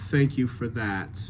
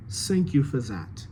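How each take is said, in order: First: Said in the usual way. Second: "Thank you for that" as "sank you for zat"; French TH, S and Z sounds; French accent. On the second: Shown as a demonstration. Coach models the ambassador's line, French accent.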